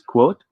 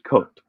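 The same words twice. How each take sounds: First: A w sound follows the k sound. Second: No w sound follows the k sound. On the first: The speaker calls it right. "it should be pronounced as quote" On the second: The speaker calls it wrong. "not quote"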